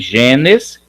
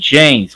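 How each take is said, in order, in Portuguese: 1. A vogal antes do s final é pronunciada. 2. A vogal antes do s final é apagada. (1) "como está escrito aqui" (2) "como se não tivesse o E"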